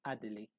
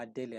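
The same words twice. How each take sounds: First: "Adele" said in three syllables, ah-deh-lee; first pronunciation guess. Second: "Adele" with the middle syllable leaned on, ah-DEH-lee; alternative pronunciation guess. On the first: Presenter reading out a username, first pronunciation guess. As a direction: say "Adele" as ah-deh-lee, falling away softly. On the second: Presenter unsure of a username, alternative pronunciation guess. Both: Shown as a demonstration. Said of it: "I don't know how that is pronounced".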